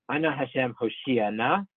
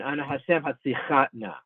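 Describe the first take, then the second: First: Slow Ana Hashem Hoshiana, stressed before the final syllable; stress inside Hoshiana. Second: Hatzichana stressed at the end of the word; late stress on Hatzichana. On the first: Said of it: "second to last syllable in Hoshiana". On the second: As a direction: Ana Hashem Hatzichana, stressing the word's end. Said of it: "stress the last syllable in Hatzichana". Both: Shown as a demonstration.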